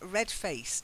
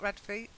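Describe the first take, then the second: First: The phrase ends with a clear t sound. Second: The phrase ends without any t sound. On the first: The speaker calls it right. "And then red faced" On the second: The speaker calls it wrong. "not red face"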